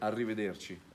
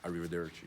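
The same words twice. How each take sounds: First: It is said with an Italian accent. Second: It is said with an American accent.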